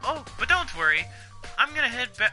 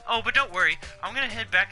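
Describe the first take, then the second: First: It is said in the Celeste character accent. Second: It is said without the Celeste character accent. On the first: The speaker calls it wrong. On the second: The speaker calls it right.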